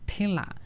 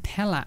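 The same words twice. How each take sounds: First: The first vowel sounds like 'e' in bed. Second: The first vowel sounds like 'a' in cat. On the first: The speaker calls it wrong. "যদি normally আমরা এটাকে উচ্চারণ করি তাহলে হয়ে যেত ঠেলা" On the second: The speaker calls it right. "কিন্তু উচ্চারণ করার সময় বলতে হবে ঠেলা"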